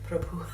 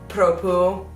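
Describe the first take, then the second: First: The word ends with an audible breathy h. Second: The word ends on the vowel, with no final h. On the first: The speaker calls it right. "that H at the end" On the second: The speaker calls it wrong. "I say Propu and not Propuh"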